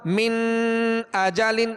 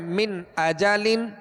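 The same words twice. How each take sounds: First: The n is held with a lingering nasal hum. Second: The n is pronounced clearly without nasal holding. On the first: The speaker calls it wrong. "गुन्ना मिन अजालिन, ये जो ठहर गए ये गुन्ना कहलाता है" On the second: The speaker calls it right. "बल्कि इजहार करना है, जाहिर करना है।"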